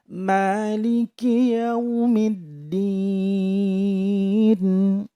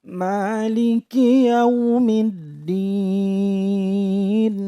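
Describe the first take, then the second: No difference in how they are said.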